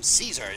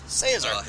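First: The word does not rhyme with gaze. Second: The word rhymes with gaze. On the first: The speaker calls it wrong. "the effete pronunciation Caesar" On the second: The speaker calls it right. "instead of Caesar, which rhymes with gaze"

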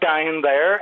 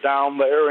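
First: It is said in a Northern Irish accent. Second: It is said in a Southern US drawl. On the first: "if you think of like down there" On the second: "you kind of make that into down there, and you have that lilt"

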